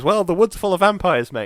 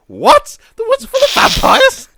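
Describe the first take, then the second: First: A hint of a higher, casual bloke's voice; tossed off like old news, mate; matter-of-fact local. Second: Very high, loud shriek of disbelief; husband shrieking back the local's words in horror; horrified disbelief. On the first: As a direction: local shrugging off the danger, lightly voiced. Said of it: "He goes". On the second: Retold or imitated. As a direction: squeal it, totally aghast. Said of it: "And he goes".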